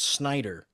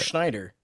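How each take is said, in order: First: The name begins with an s sound. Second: The name begins with a sh sound. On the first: The speaker calls it right. "It's Snyder" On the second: The speaker calls it wrong. "I'm pronouncing that wrong"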